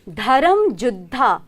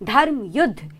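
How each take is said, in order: First: The second word begins with a J sound. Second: The second word begins with a Y sound. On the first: This is the regional Rajasthani form. "you heard me right" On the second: This is the standard Hindi form. "Hindi में"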